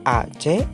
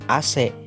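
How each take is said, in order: First: The letters are named the Indonesian way. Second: The letters are named the English way. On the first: The speaker calls it right. "harus dibaca seperti nama abjad bahasa Indonesia" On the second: The speaker calls it wrong. "Kebanyakan orang membaca singkatan itu dengan A C"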